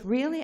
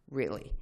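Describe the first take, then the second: First: High, rising disbelieving "Really?"; "Really?" pitched high with a sharp upward lift; surprised question. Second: Low, falling "Really." said flatly; "Really." dropped low with a firm falling end; flat confirmation. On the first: Janet Reno asks back in surprise, a high rising "Really?". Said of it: "And she goes". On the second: Answering Janet Reno, a low, flat, falling "Really.". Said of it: "I said". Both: Retold or imitated.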